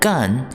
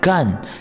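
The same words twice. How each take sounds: First: It is said with a high level first tone. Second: It is said with a falling fourth tone. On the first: It is a verb meaning to work or do. "gun is the first tone" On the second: It is an adjective meaning dry. "same spelling but fourth tone"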